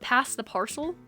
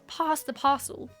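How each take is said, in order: First: It is said in a non-British accent. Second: It is said in a British accent. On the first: The speaker calls it wrong. "That just sounds so stupid though" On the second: The speaker calls it right. "you can only say it in a British voice"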